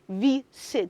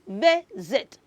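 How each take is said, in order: First: The middle consonant is a hissing S sound. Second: The middle consonant is a buzzing Z sound. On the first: The speaker calls it wrong. "not S" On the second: The speaker calls it right. "The letter S in that word is having the sound Z"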